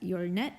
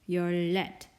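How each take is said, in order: First: The second syllable starts with an n sound. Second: The second syllable starts with an l sound. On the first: The speaker calls it wrong. "Koreans wouldn't pronounce that 열넷" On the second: The speaker calls it right. "They'd pronounce it 열렛"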